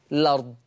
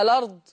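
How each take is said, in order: First: "الأرض" as lard; initial vowel dropped. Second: "الأرض" as a-lard; vowel first in "الأرض", then lard; initial vowel kept. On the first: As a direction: open "الأرض" on the l. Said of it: "أو حذف همزة الوصل". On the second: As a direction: open "الأرض" on a short a. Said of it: "إثبات همزة الوصل". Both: Shown as a demonstration.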